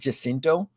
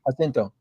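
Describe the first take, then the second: First: The name is said with English sounds. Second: The name is said with Spanish sounds. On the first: This is how many people say it. The speaker calls it wrong. "it's interesting to hear people pronounce it Jacinto" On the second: This is how the name is meant to sound. The speaker calls it right. "it's really meant to be pronounced with the Spanish tongue"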